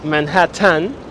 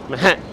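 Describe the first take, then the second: First: Both T sounds are clearly pronounced. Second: The T sound is short and reduced. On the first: "Some people think you have to pronounce the T's" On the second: "you pronounce a short T rather than two T's"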